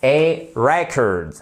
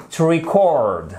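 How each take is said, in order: First: "record" stressed on REC, second syllable reduced; noun, first-syllable stress. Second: "record" stressed on CORD, short i before it; verb, second-syllable stress. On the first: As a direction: slowly model "record" as REC-ord, falling. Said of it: "l'accentuation non plus sur la première syllabe". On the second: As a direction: model "record" as ri-CORD, falling at the end. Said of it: "mais sur la deuxième". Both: Shown as a demonstration.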